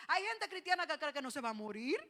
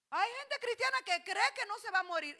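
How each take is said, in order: First: Said in the usual way. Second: Higher, louder repeat stressing cristiana; louder, higher restatement stressing cristiana; emphatic repeat. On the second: Shown as a demonstration. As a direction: hit cristiana hard, loud and high. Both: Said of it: "repeated emphatically".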